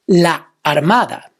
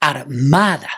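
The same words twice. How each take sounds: First: Said in the usual way. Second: Armada split as ar-MA-da; stress on second a. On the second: Shown as a demonstration. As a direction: hold back, then lean on MA in Armada. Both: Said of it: "stress of the word is in the second a".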